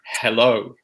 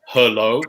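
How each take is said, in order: First: The first vowel is a clear eh sound. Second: The first vowel is a weak uh sound. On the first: The speaker calls it right. "it's an eh sound ... but hello" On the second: The speaker calls it wrong. "not a schwa ... different from an from a uh sound, not hello"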